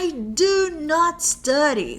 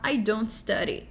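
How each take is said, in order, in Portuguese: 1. Do not é falado por extenso, com ênfase. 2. Do not é contraído em uma única sílaba informal. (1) "a gente fala do not quando a gente tá querendo enfatizar um negócio" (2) "no dia a dia, é muito mais comum a gente falar"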